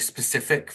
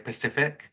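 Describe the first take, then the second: First: The word begins with an s sound. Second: The word begins with a p sound. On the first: "I can't say specific very well either" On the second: "I often say Pacific"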